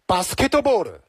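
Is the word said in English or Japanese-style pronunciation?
Japanese-style. It is said with Japanese-style added vowels. "日式发音呢就是basketball"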